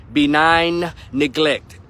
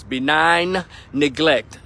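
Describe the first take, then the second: First: Benign neglect, each word dragged out; repeated even slower. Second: Benign neglect spelled out slowly; slow and deliberate. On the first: Repeating the phrase for emphasis to viewers, slower. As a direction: hammer it home once more, slower. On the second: Vlogger drilling two key words into his viewers, slow stress. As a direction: lean hard on benign, slow and heavy. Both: Shown as a demonstration. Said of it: "understand these two words".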